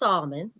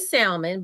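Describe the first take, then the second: First: The L sound is silent in the word. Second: The L sound is pronounced in the word. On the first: This is the accepted way to say it. The speaker calls it right. "but I know it's salmon" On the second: This is the speaker's own habit. The speaker calls it wrong. "I do say salmon"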